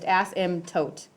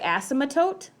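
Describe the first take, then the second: First: No extra vowel is inserted inside the word. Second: An extra uh vowel is inserted inside the word. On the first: The speaker calls it right. "so it's just asymptote" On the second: The speaker calls it wrong. "people want to say asymptote, which there's not an extra uh, thing in there"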